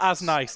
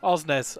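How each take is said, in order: First: The name begins with an open 'ah' vowel. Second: The name begins with a rounded 'oh' vowel. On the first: "I I prefer as nice to be honest" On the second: "That's apparently how you say it"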